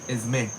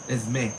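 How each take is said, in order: Both takes have the same delivery.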